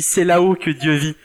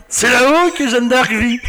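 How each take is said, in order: First: Said in the usual way. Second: High, slow pompous put-on voice; mock Le Pen voice. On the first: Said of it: "son fils qui dit". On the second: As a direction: ham it up like a pompous politician. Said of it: "T'imagines Jean-Marie Le Pen en train de tenir Marie". (voix parodique de Jean-Marie Le Pen en riant)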